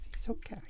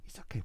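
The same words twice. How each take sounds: First: High, hammed-up Italian accent; comic Italian accent, much higher. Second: Said in the usual way. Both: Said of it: "Italian accent".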